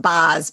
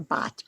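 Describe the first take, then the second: First: The word ends with an s sound. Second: The word ends with a t sound. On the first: This is the old-fashioned way of saying it. "if you're old school, it's Boz" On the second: This is the way most people say it now. "It's more bot"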